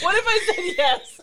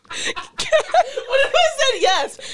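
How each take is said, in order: First: Much higher, laughing mock British accent; hammed-up British accent repeated; bad British accent. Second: Slow, much higher, louder mock British accent; a terrible hammed-up British accent, laughing; bad British accent. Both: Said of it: "worst British accent I've ever done".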